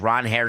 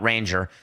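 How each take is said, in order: First: The name sounds like 'Ron Hare'. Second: The name sounds like 'Ranger'. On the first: The speaker calls it right. "He made sure that we pronounce it correctly going forward" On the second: The speaker calls it wrong. "It's not Ranger"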